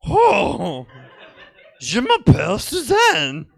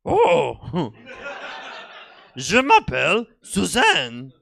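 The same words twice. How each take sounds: First: Higher, louder, slow exaggerated French tape parody with a laugh; mocking the French tape. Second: Slow, higher French language-tape voice with a little laugh; sing-song like a French lesson recording; slow, higher mock French tape lady. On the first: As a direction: overdo the French tape lady to mock it. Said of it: "I was mocking the tape". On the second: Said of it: "the lady on the tape said".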